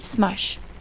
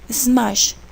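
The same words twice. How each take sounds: First: The word begins directly with the S sound. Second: An extra E sound comes before the S. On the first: The speaker calls it right. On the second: The speaker calls it wrong. "we say"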